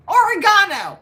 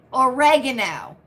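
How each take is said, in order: First: Oregano said or-uh-GAH-no, long GAH; quoting the wrong oregano; mispronounced oregano. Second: Oregano said or-EH-gun-o, stress on the second syllable; correct oregano. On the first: Retold or imitated. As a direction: repeat the heard oregano with a stretched GAH. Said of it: "I heard somebody say, pronounce it". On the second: Shown as a demonstration. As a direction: give the proper Oregano first. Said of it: "so it's oregano".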